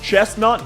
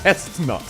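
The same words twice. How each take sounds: First: The word begins with a ch sound. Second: The word begins with a different sound. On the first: The speaker calls it right. "actually using the ch noise correctly" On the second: The speaker calls it wrong. "rather than chestnut"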